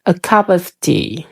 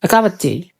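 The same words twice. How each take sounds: First: "A cup of tea" said slowly, every word separate; word-by-word textbook reading; spelled-out reading. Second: "A cup of tea" linked as "a kapa tea", "of" reduced; soft, quick connected phrase; native linking. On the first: Teacher mimics the learner's version. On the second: Teacher models the native version. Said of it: "Gini, kan?". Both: Shown as a demonstration.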